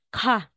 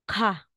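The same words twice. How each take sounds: No difference in how they are said.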